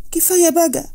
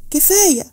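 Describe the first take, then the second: First: High, pained plea of كفاية بقى; pleading cry. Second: A second high, pained كفاية; pleading cry. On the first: Wife begging her husband to stop lying, high pained plea. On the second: Wife begging her husband once more, high pained cry. Bride repeats her plea. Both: A narrator's reading.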